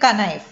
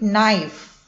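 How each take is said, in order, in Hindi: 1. शुरू में K की ध्वनि सुनाई देती है। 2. शुरू में K की ध्वनि मौन है। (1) "we don't read it knife" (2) "We read it knife"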